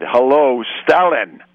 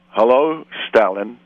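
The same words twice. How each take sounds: First: Hammed-up pub bully throwing down the gauntlet; repeating the greeting to a stranger at the bar as a louder threat; menacing challenge. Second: Said in the usual way. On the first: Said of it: "in a voice that quietened the whole room". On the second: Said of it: "he said again in a voice".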